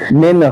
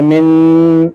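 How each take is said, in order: First: The n is said clearly without nasal holding. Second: The n is held and nasalized in the nose. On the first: The speaker calls it right. "बिल्कुल साफ" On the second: The speaker calls it wrong. "नून में नाक में आवाज नहीं पहुंचानी, जैसे मिन ऐसे नहीं करना है"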